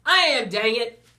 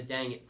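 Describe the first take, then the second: First: Much higher, very loud frustrated outburst; exasperated shout. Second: Said in the usual way. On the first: A narrator's reading. Student blurting an answer to the teacher, exasperated shout.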